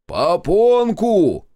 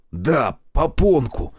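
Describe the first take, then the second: First: High, loud, slowly stretched holler; deafened shout. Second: Slow, resigned echo at moderate volume; exasperated confirmation. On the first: Deafened Shestakov repeating misheard word to Zotov, loud stretched shout. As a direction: shout back what you misheard. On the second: Zotov giving up on the deafened man, slow exasperated agreement. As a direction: give up and agree, stretching the word. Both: A narrator's reading.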